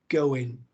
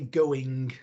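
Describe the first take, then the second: First: A sound is dropped from the word. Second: The word is said in full, every sound kept. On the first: "I would probably drop a sound here or there" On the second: "I wouldn't say going"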